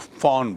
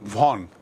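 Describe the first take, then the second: First: The word begins with an F sound. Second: The word begins with a V sound. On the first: "German में वी O N को फॉन बोलते हैं" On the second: "वैसे तो उच्चारण का वॉन"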